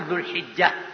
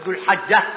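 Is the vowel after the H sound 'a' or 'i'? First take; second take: i; a. First: The vowel after the H sound is 'i'. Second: The vowel after the H sound is 'a'.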